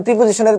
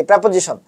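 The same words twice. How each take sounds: First: "প্রিপোজিশনের" starting with "pri"; "প্রিপোজিশনের" with an i in the first syllable; usual local pronunciation. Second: "প্রিপোজিশন" starting with open "prae"; "প্রিপোজিশন" with e, not i, in the first syllable; correct pronunciation. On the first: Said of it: "প্রিপোজিশনের pronunciation কি?". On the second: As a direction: say "প্রিপোজিশন" as prep-o-zi-shon. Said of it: "pronunciation কি?". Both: Shown as a demonstration.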